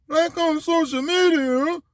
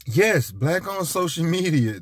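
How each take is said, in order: First: Dumb voice. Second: Said in the usual way. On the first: Retold or imitated. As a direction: echo it back like you've never heard of it. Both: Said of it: "That's my dumb, dumb voice".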